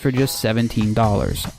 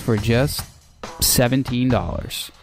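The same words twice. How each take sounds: First: The price follows without a pause. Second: A short pause comes before the price.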